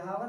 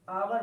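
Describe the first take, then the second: First: The word starts with a breathy h sound. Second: The word starts directly with a vowel. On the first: The speaker calls it wrong. "हावर नहीं पढ़ा जाता" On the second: The speaker calls it right. "इसको आवर पढ़ा जाता है"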